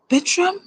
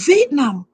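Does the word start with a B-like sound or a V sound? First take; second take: B-like sound; V sound. First: The word starts with a B-like sound. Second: The word starts with a V sound. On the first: It copies a learner's mispronunciation. The speaker calls it wrong. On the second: It is the intended standard pronunciation. The speaker calls it right.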